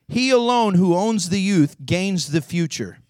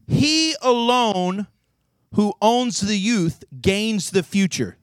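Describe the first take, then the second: First: Said in the usual way. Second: Very slow, each word spaced; preacher reading the quote slowly for weight; slow, weighty quote. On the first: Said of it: "That's what he says". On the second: Shown as a demonstration. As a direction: deliver it like a pronouncement. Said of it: "let me get this".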